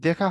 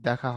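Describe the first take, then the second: First: The first vowel is a closed 'e' sound. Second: The first vowel is an open 'a' sound. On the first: The speaker calls it wrong. "হবে না" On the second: The speaker calls it right. "হবে দেখা হয় না বন্ধু"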